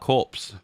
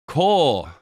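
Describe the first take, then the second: First: It is said like corpse, ending in ps. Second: It is said without a final ps sound. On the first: The speaker calls it wrong. "I used to call that corpse" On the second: The speaker calls it right. "I was saying it right that time"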